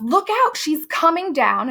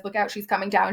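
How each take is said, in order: First: High, rising mock yell of warning; Abigail yells. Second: Said in the usual way. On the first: Abigail warning the girls, high mock yell. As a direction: call out the warning in a thin high voice. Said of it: "Abigail yells". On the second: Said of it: "when she says".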